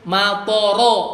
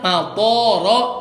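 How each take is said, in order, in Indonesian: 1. Semua vokalnya dibaca pendek. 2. Salah satu vokalnya dibaca panjang.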